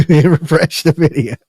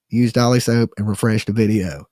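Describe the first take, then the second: First: Laughing, louder and higher. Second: Said in the usual way. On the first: Real, not acted. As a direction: burst out laughing through it. Repeating the plea, laughing.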